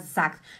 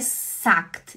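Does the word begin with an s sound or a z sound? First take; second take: z sound; s sound. First: The word begins with a buzzing z sound. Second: The word begins with a hissing s sound. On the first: The speaker calls it right. "a Jaqueline fala Z" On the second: The speaker calls it wrong. "Por que, que não é sagt?"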